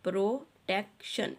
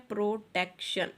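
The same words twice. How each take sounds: First: protection said slowly, split as pro, tek, shun; syllable by syllable. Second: Said in the usual way. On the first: Shown as a demonstration. Teacher showing children how the word divides, syllable by syllable. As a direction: break protection into its syllables with small gaps. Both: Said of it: "इस तरह से आपने इसके syllables लिखे हैं".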